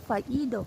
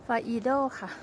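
First: ฟาอีโด said as the Italians say it, vowels kept even; ฟาอีโด with a light Italian lilt; Italian-style pronunciation. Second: ฟาอีโด said the Thai way, with Thai tones on each syllable; ฟาอีโด in a Thai accent, falling at the end. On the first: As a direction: pronounce ฟาอีโด the foreign way. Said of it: "เขาก็จะเรียกว่า ออกเสียง". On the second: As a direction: give ฟาอีโด a plain Thai-accented reading. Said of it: "ออกสำเนียงไทย". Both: Shown as a demonstration.

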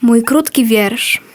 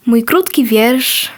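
Both takes have the same delivery.

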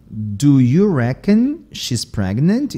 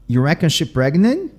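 First: Said in the usual way. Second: Casual run-on "You reckon she pregnant", no helper verbs; Southern dropped words. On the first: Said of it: "também esse do auxiliar". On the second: Shown as a demonstration. Teacher shows learners Southern speech, dropped-verb delivery. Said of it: "aqui eu tirei o verbo to be".

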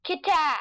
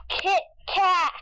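First: Said in the usual way. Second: Kit Kat said through a laugh, raised. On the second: Real, not acted. Wordplay repeated laughing.

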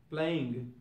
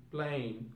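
First: "playing" with the G at the end; G sounded. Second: "playing" said as "playin'"; G dropped. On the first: Teacher giving the normal English form, "playing" with its G. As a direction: finish "playing" on ng. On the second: Teacher showing learners Cockney British, "playing" without G. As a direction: end "playing" on a plain N. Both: Shown as a demonstration. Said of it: "We won't have to use any G".

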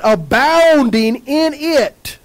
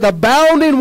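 First: Abounding drawn out slowly, word by word; slow preacher's emphasis on Abounding; stretched slowly. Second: Said in the usual way. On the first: Shown as a demonstration. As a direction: lean into the word Abounding and take your time. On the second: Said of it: "It says".

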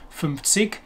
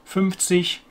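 First: "fünfzig" ending in a hard k; southern German fünfzig. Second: Standard German "fünfzig", final g softened to ch; proper Hochdeutsch. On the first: Teacher quotes southern regions, "fünfzig" with hard k ending. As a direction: close "fünfzig" on a k, not ch. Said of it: "In the south of Germany". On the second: Teacher gives proper Hochdeutsch, "fünfzig" ending like ich. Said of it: "that's the proper Hochdeutsch pronunciation". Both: Shown as a demonstration.

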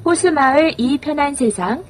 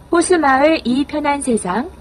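Both takes have the same delivery.

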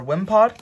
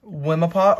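First: Wimpod in two syllables; two-syllable reading. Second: Wimpod with an "uh" in the middle; extra middle syllable. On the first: Reader corrects the card name, Wimpod said as "wim-pod". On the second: Reader tries a card name, Wimpod said as "wim-uh-pod". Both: Real, not acted. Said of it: "or Wimpod".

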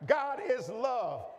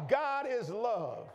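First: "is" hit louder, slow and higher; slow, louder "God IS love", the word "is" pressed hard; stress on is. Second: "God" leaned on, slow, then falling; slow "God is love" with the weight on "God"; stress on God. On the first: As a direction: punch "is" as if proving it. Preacher repeats key line louder. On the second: Preacher repeats key line. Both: Acted.

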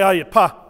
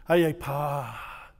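First: Aye pa with pa held briefly; short pa. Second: Aye pa said low and soft, pa held longer. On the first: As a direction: answer with a short pa. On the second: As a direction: stretch the pa to sound better. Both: Shown as a demonstration. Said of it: "the longer you hold pa".

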